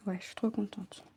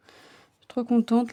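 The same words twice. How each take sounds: First: Soft unvoiced whisper of delight; quiet happy whisper. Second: Said in the usual way. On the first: Real, not acted. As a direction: breathe it to yourself, pleased. Happy with her embroidery.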